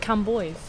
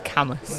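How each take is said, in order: First: The name ends with an 'oys' sound. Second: The name ends with an 'us' sound. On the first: The speaker calls it wrong. "I thought it was Camboys. It's not" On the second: The speaker calls it right. "It's Camus"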